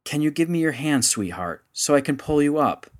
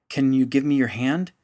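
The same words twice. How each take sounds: First: More urgent. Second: Lightly raised call downward. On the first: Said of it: "And then more urgently". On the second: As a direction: call down to the child below. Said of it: "he called down to the little girl". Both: Acted.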